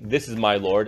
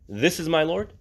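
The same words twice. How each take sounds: First: It is said as a flat statement. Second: It is said as a questioning challenge.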